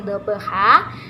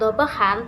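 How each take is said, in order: First: The word ends in a lengthened a vowel. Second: The word ends with an n sound. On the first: The speaker calls it right. "tapi dhabha" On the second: The speaker calls it wrong. "kita membaca tidak dhabhan"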